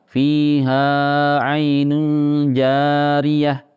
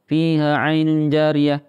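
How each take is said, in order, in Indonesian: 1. Bunyi panjang itu dibaca terlalu panjang. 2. Bunyi panjang itu dipotong pendek dan dibaca cepat. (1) "Ini salah, kepanjangan" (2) "Atau kurang panjang, terlalu cepat bacanya"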